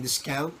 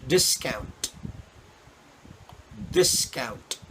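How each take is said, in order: First: "discount" with the final t dropped, ending "discoun"; flat t. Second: "discount" with a clear released t at the end; crisp final t. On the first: Teacher demos the wrong "discount", flat final t. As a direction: say "discount" lazily, t gone. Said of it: "where the, the T is so flat". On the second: Teacher demos the correct "discount" with a crisp final t. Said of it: "you say". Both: Shown as a demonstration.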